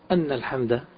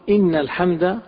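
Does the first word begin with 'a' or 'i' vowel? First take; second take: a; i. First: The first word begins with an 'a' vowel. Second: The first word begins with an 'i' vowel. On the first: It gives the reason for the response. The speaker calls it wrong. "ولا نقول أن الحمد بالفتح" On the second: It starts a new statement of praise. The speaker calls it right. "نقول إن الحمد"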